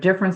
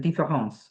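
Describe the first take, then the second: First: It is said with a plain American accent. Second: It is said with a French accent.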